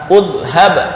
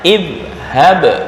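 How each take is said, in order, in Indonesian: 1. Kata ini diawali dengan vokal u. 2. Kata ini diawali dengan vokal i. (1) "nggak boleh dibaca udhhab, nggak bisa" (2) "ntar fi'il amarnya idhhab"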